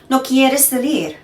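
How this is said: The voice falls at the end.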